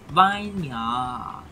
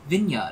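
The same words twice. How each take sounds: First: It is said with a Malaysian pronunciation. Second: It is said with a standard pronunciation.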